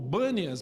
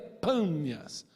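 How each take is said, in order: First: The name begins with a B sound. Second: The name begins with a P sound. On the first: This is how the name is known today. "não pronunciam o B, o P, o som de B, esse lugar hoje é conhecido como Bânias" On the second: This is the original name. "mas na verdade é Pânias"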